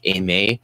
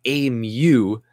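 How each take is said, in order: First: "aimer" said with an A sound at the end; "aimer" pronounced as "ay-may"; correct French pronunciation. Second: "A Mew" with a "myoo" ending; "A Mew" said as "ay-myoo", wrongly for [name]; mispronounced name. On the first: Shown as a demonstration. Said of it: "it makes the A sound". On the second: Retold or imitated. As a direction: imitate a boss botching the name as "A Mew". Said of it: "my boss would call me".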